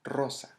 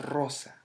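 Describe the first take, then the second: The two takes are said the same way.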